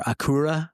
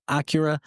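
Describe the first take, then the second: First: Acura said the way it should be pronounced, "a-KOO-ra"; "Acura" with an "oo" in the middle, no "y" glide; corrected pronunciation. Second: Said in the usual way. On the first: Shown as a demonstration. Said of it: "it should be pronounced".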